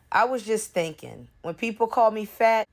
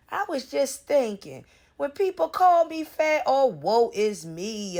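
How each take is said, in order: First: Said in the usual way. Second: Whiny mimicry of the post; mocking whine. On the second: Vlogger mocking Prissy's post, imitating her in a whiny voice. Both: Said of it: "That's all you wanna do is".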